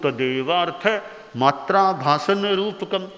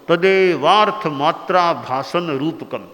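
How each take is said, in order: First: The compound is broken up by pauses in the middle. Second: The compound is said together without any pause. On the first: The speaker calls it wrong. "बीच में तोड़ दिया" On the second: The speaker calls it right. "साथ बोलो"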